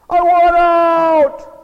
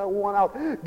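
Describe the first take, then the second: First: Loud, high, drawn-out cry to God; hammed-up desperate shout; desperate yell. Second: Soft, fed-up plea to God; quiet mock despair; disgusted. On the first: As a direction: bellow it slowly with each word stretched. Acting out a desperate prayer. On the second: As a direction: mutter it like a beaten prayer. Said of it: "we become disgusted with the world".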